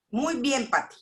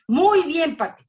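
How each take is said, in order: First: Said in the usual way. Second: Muy bien, Pati said higher and louder, mock emphatic; imitating a pointed greeting. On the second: Retelling how the pastor's wife answered, mock emphatic greeting. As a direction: mimic her showy, pointed reply. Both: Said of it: "Y yo vi que me hizo así".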